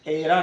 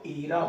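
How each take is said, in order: First: The first vowel sounds like eh. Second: The first vowel sounds like ee. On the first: The speaker calls it wrong. "एरा नहीं" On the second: The speaker calls it right. "इसको ईरा बोला जाता है"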